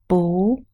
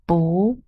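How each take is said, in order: First: The word is said with a rising tone. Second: The same.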